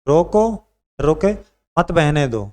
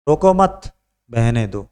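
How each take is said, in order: First: There is a pause after the word roko. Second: There is a pause after the word mat. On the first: "यहाँ रोको" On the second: "मत के बाद रोके"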